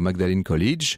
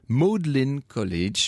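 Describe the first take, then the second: First: Magdalen is read as spelled, French style. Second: Magdalen is said in its English local form. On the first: The speaker calls it wrong. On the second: The speaker calls it right.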